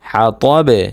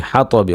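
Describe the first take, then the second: First: "হা ত বে" ending on a bounced b; stopped ending. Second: "হা ত বি" ending in a sounded i; full vowel ending. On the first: Teacher showing how to pause, "হা ত বে" with bounced final b. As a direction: drop the i, echo the b in "হা ত বে". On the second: Teacher giving the form before stopping, "হা ত বি" ending in i. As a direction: say "হা ত বি" with the final i. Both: Shown as a demonstration. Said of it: "ওয়াকফ করলে".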